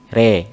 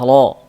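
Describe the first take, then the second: First: The vowel is tilted toward an e sound. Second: The vowel is a full open o sound. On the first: "dimiringkan ke kasroh jadi re" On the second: "Kalau fathah lo"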